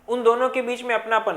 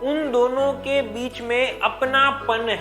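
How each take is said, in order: First: The sounds of apnapan are slurred together. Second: Every sound of apnapan is clearly pronounced. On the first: The speaker calls it wrong. "ऐसा नहीं होना चाहिए कि हम वैसे बोल दे" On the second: The speaker calls it right. "उसमें पांचों के पांच लेटर आपके कान तक पहुंचे होंगे"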